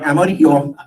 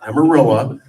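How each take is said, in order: First: "Amarillo" mumbled with a laugh, as the wrong version; wrong pronunciation. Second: "Amarillo" said firmly as the right way; correct pronunciation. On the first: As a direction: say "Amarillo" the way you don't mean it, laughing. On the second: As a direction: correct yourself with a clear "Amarillo". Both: Shown as a demonstration. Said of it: "Not Amarillo, Amarillo".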